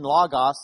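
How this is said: The word is said with a Greek-style pronunciation. The speaker calls it right. "if you probably pronounce it right"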